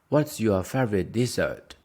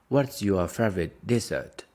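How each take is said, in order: Both takes have the same delivery.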